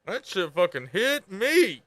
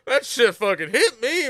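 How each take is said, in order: First: Each word drawn out slowly; slow sincere confession; slow emphatic. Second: Emphatic. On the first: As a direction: let it land, slow and heavy. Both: Real, not acted. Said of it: "I'm telling you".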